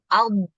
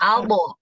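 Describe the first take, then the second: First: The final consonant is held without release. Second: The final consonant bounces with an added vowel. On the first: The speaker calls it right. "itu ditahan tuh" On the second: The speaker calls it wrong. "itu salah kalau albo"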